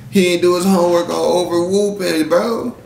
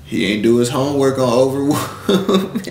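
First: Higher, incredulous mocking echo of the phrase; mocking repeat. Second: Said in the usual way. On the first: Real, not acted. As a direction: say it back as if it's ridiculous.

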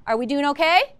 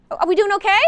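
First: Said in the usual way. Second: Pumped-up call to the class; louder, higher repeat. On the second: Real, not acted. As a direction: call it out again with more energy. Teacher repeats question louder.

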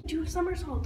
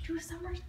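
First: Said in the usual way. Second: Soft, voiceless whisper; hushed stage whisper; whispered prompting. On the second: Real, not acted.

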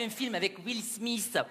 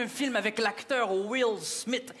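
First: Mock French accent on Will Smith; French-accented English. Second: Will Smith said the North American English way; North American pronunciation. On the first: Quebecer mimics Rachid naming the actor, mock French accent. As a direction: imitate a French speaker mangling Will Smith. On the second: Shown as a demonstration. Quebecer shows Rachid how Americans name the actor, North American pronunciation. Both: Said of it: "vous n'avez pas le même accent que nous en Amérique".

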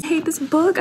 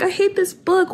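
First: High, rising on "book"; stress on book. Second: "hate" punched high; stress on hate. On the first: Reader in mock despair, rising on "book". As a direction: lean into "book" with a rising whine. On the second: Reader in mock despair, punching "hate". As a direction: hit "hate" hard and high. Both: Real, not acted. Reacting to the twist.

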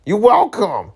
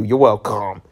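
First: Higher, lilting you're welcome; mock sing-song. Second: Said in the usual way. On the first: To viewers after reading two chapters, teasing sing-song. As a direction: toss a teasing thank-you back.

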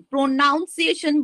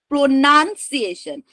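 First: "প্রনাউন্সিয়েশন" with a noun diphthong; wrong "প্রনাউন্সিয়েশন". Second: "প্রনাউন্সিয়েশন" with a short NUN; correct "প্রনাউন্সিয়েশন". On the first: Teacher quoting the mistake to students, "প্রনাউন্সিয়েশন" with "noun". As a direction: say "প্রনাউন্সিয়েশন" as pro-noun-ciation. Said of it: "বলে কোনো word হয় না". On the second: Teacher correcting the mistake, "প্রনাউন্সিয়েশন" with "nun" for "noun". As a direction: say "প্রনাউন্সিয়েশন" as pro-nun-si-a-tion. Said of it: "এন ইউ এন". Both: Shown as a demonstration.

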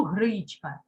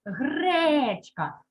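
First: Гречка mispronounced with «и», as «гричка»; wrong vowel shown. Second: Гречка with a long, clear «е»; stressed check word. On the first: Teacher shows what nobody says, гречка as «гричка». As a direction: put «и» for «е» in гречка. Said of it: "Уже ж я не скажу". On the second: Teacher gives the check word, гречка with drawn-out «е». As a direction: stretch the first vowel of гречка. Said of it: "добираю перевірне слово". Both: Shown as a demonstration.

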